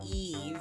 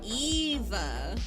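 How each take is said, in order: First: The name ends without any added vowel. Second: The name ends with a clearly pronounced 'uh' vowel. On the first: The speaker calls it right. "it's Eve" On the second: The speaker calls it wrong. "really enunciates the uh"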